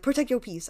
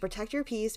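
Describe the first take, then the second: First: The phrase is said in a dramatic, exaggerated way. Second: The phrase is said in a plain, ordinary way. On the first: "I didn't say it like protect your peace" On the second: "I said it normally"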